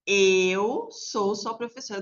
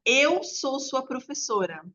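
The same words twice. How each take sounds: First: Eu marked, whole line slowed down; slow repeat stressing Eu. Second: Eu said higher and slower; stress on Eu. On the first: Teacher repeating for the child, very slow. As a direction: repeat it slowly, pointing at Eu. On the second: Teacher showing the child where "eu" is used, slow. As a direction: lean on Eu, slow teacher demo. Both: Shown as a demonstration. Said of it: "Você viu onde eu usei "eu"?".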